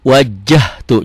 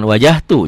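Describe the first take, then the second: First: The middle j sound is doubled and held. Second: The middle j sound is short and single. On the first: The speaker calls it right. "Ada double di sini" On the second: The speaker calls it wrong. "jangan wajahtu"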